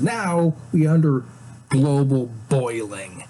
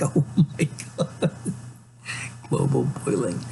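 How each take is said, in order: First: Mock-solemn announcement. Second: Whispered oh my god breaking into laughter; laughing mockery. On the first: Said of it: "he says". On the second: Real, not acted. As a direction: scoff at the phrase through a laugh. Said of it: "It's like".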